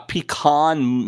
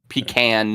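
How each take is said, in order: First: Pronounced the way Midwesterners say the word. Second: Pronounced the way northeasterners say the word. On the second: "northeast, east coast"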